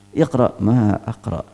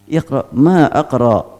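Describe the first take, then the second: First: "ma aqra" as a slow falling statement, evenly weighted; slow, level "ma aqra" that settles downward; negative statement. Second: "ma aqra" asked slowly, with a long, emphatic "ma"; slow, insistent "ma aqra" put as a question; questioning intonation. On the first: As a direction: state "ma aqra" as a plain denial, drawn out on "ma". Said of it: "bisa berupa berita negatif". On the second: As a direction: ask "ma aqra" firmly, leaning hard on "ma". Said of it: "bisa berupa pertanyaan". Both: Shown as a demonstration.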